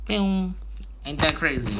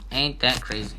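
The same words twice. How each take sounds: First: High, excited "can you believe it"; amazed. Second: Said in the usual way. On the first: Real, not acted. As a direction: pitch up in delighted wonder. Amazed aside after explanation.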